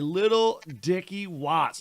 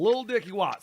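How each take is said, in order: First: The first word is the full two-syllable 'little'. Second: The first word is the short one-syllable 'lil'. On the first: The speaker calls it wrong. "You can't say little" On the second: The speaker calls it right. "You got to say it with the Lil"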